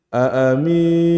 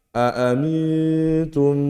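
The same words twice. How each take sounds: First: AAMINTUM with MI stretched into a long ee; lengthened MI. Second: AAMINTUM slowly, humming long on the N; held nun sukun. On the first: Teacher showing a common mistake, AAMINTUM with MI too long. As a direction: drag out the MI in AAMINTUM before the N. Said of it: "mi-nya jadi panjang". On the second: Teacher modelling the correct rule, AAMINTUM with a long held N. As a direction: go straight to the nasal N in AAMINTUM and hold it. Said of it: "mim nun sukun ketemu ta". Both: Shown as a demonstration.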